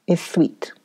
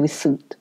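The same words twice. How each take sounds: First: Whisper. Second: Said in the usual way. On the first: A narrator's reading. Narrator echoes in whisper.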